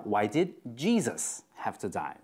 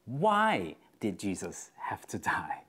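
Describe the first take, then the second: First: "Jesus" carries the weight of the question; stress on Jesus. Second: "why" hit hardest, whispered and slow; stress on why. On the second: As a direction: lean on "why" in a hushed, slow voice. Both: Shown as a demonstration. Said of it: "Where you put the emphasis".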